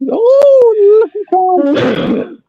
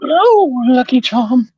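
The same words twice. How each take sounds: First: It is said in a high-pitched leprechaun voice. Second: It is said in his normal voice.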